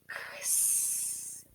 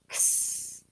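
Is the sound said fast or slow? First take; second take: slow; fast. First: The two sounds are said slowly and apart. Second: The two sounds are said quickly together.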